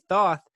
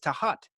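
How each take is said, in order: First: The name is said as one syllable, 'thoth'. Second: The name is said as two syllables, 'ta-hat'. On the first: This is how many people commonly say it. "Some people say Thoth" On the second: This is how Egyptians say it. "the Egyptians tell me it's Tahat"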